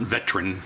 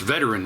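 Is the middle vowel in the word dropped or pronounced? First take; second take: dropped; pronounced. First: The middle vowel is dropped. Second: The middle vowel is clearly pronounced. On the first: The speaker calls it wrong. "It's not veteran" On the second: The speaker calls it right. "It's veteran with an E"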